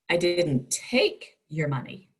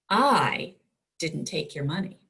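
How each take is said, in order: First: The stress is on the word take. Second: The stress is on the word I.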